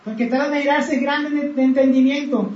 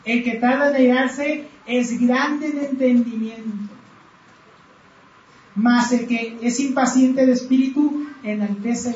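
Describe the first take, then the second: First: Said in the usual way. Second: "El que tarda en airarse" leído muy despacio, palabra por palabra; lectura lenta. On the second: Shown as a demonstration. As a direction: lee el proverbio con calma y pausado. (lectura pausada del versículo) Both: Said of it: "Proverbios catorce veintinueve dice".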